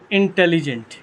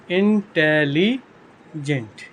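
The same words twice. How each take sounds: First: Said in the usual way. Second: intelligent slowly split as इन-टे-ली-जेंट; syllable by syllable. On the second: Shown as a demonstration. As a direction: stretch intelligent out in separate syllables. Teacher breaks word into syllables.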